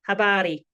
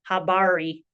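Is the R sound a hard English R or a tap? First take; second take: tap; hard R. First: The R is a quick tongue tap. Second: The R is a hard, rounded English R. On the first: The speaker calls it right. "we have" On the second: The speaker calls it wrong. "rather than"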